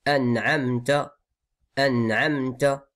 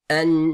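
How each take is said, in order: First: "An'amta" with plain, unprolonged n and m; careful, slow "An'amta"; clear nasal. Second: "an'amta" with n and m hummed very long; exaggerated humming "annn'ammmta"; overlong nasal. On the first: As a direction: show each letter of "An'amta" gently, no hum. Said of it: "Donc on dit". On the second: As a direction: wrongly drag out the nasals of "an'amta". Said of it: "C'est pas comme ça". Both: Shown as a demonstration.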